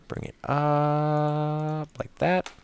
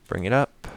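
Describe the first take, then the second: First: High sing-song. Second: Said in the usual way. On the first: Shown as a demonstration. Showing the redstone move in a high sing-song voice. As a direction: Bring it up like that, much higher and slow, rising at the end.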